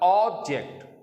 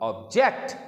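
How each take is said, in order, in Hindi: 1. Stress पहले syllable पर है। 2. स्ट्रेस दूसरे सिलेबल पर है। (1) "फर्स्ट सिलेबल है वहां पर स्ट्रेस डाला" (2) "सेकंड सिलेबल पे स्ट्रेस को रखेंगे"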